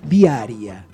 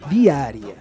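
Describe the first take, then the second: No difference in how they are said.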